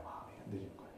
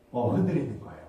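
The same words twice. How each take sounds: First: 흔들리는 breathed out in a whisper, voice dropped away. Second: Said in the usual way. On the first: Shown as a demonstration. Pastor confides to the congregation his heart wavered, whispering. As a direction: repeat it as a hushed confession, 마음이 흔들리는 whispered. Repeats the confession as a hush.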